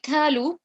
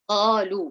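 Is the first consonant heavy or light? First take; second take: light; heavy. First: The first consonant is a light k. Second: The first consonant is a heavy q. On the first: The speaker calls it wrong. "then I have changed that to the letter kaf" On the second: The speaker calls it right. "So qalu will be right"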